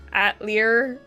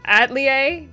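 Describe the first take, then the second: First: "Atelier" as AT-lee-er, with a final R; rejected pronunciation. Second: "Atelier" as AT-lee-ay, no R at the end; Google's pronunciation. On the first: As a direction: end "Atelier" on -er, sounding the R. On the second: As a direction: end "Atelier" on an open -ay, higher and louder. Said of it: "it's pronounced". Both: Shown as a demonstration.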